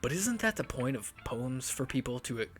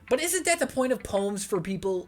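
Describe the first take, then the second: First: It is said in a sultry voice. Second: It is said in a plain voice.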